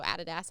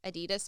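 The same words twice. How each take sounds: First: Adidas stressed on the first, "AD-i-das"; alternative pronunciation. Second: Adidas stressed on the middle, "a-DEE-das"; alternative pronunciation. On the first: Traveller offering the other brand pronunciation, Adidas said AD-i-das. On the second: Traveller unsure of the brand's name, Adidas said a-DEE-das. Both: Shown as a demonstration. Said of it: "however you say it".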